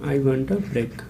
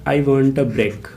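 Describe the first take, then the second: First: Said in the usual way. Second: I want a break said very slowly and evenly; slow dictation. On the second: Shown as a demonstration. Teacher dictating the example slowly to students.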